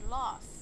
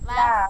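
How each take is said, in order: First: It is said with a British accent. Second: It is said with an American accent. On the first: "for the British we say laugh" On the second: "is for like the American English"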